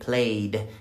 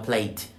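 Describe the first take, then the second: First: The word ends with a voiced D sound. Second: The word ends with a voiceless T sound. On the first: The speaker calls it right. "con D" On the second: The speaker calls it wrong. "Cuidado que no suene como T"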